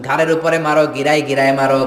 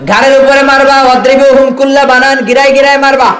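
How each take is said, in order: First: Said in the usual way. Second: High, loud sermon cry; loud preacher's call; fiery preaching shout. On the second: Acted. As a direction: thunder the command at the crowd. Preacher hammers a Quran command.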